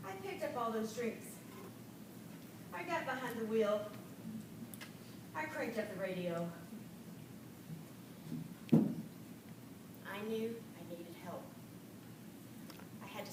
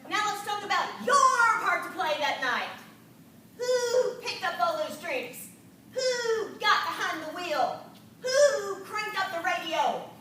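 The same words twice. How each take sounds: First: Soft, low, remorseful admission; quiet confession. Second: Stern, loud questioning mentor; drill sergeant. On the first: Real, not acted. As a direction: own up softly, full of regret. Quietly admitting her own fault. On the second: Retold or imitated. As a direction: grill her like a strict sergeant. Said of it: "she spoke like a drill sergeant".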